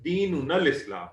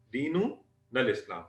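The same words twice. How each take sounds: First: Said in the usual way. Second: "दीनुनल Islam" said slowly, each syllable spaced for students; slow drilled repeat. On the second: Shown as a demonstration. Teacher repeating the answer for the class, slowly. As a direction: model it slowly so the class can copy. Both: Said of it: "तो आप क्या बताएंगे?".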